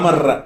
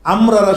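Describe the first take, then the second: First: The two r sounds merge into one doubled r. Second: The two r sounds are pronounced separately. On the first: The speaker calls it right. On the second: The speaker calls it wrong.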